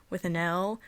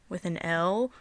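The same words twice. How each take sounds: The two takes are said the same way.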